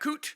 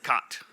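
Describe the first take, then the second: First: It rhymes with 'boot', with a long vowel. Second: It rhymes with 'hot', with a short vowel. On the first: This is the speaker's own pronunciation. "I pronounce that Coot" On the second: Other people say it this way. "You will hear other people pronounce it Cot"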